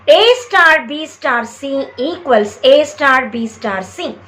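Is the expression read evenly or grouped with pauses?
evenly. It is read evenly, without grouping pauses. The grouping of the terms is not shown. The speaker calls it wrong. "I have read it in the same way"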